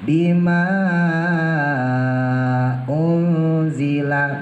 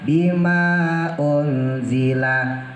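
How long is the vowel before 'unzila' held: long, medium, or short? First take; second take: long; short. First: The long vowel is held for six counts. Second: The long vowel is held for two counts. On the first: "Boleh dibaca enam seperti mat wajib" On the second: "Boleh dibaca dua"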